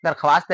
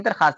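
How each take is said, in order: First: दरख्वास्त with "kha-waast" at the end; written form. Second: दरखास्त with plain "khaast" at the end; read form. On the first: Teacher recaps the written form, w sounded. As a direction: pronounce the व in दरख्वास्त. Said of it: "दरख्वास्त लिखते हैं". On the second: Teacher recaps the read form, w left silent. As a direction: say दरखास्त without any w. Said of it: "दरखास्त पढ़ते हैं". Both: Shown as a demonstration.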